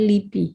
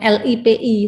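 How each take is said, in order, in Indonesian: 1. Diucapkan sebagai satu kata. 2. Setiap huruf diucapkan terpisah. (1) "tapi L I P I ya" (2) "Bukan L I P I"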